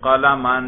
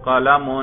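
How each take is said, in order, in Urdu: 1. لفظ -an پر ختم ہوتا ہے۔ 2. لفظ -un پر ختم ہوتا ہے۔ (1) "فتح پہ ذرا تلفظ کریں" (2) "اس کے رفع پر ہم تلفظ کر رہے ہیں"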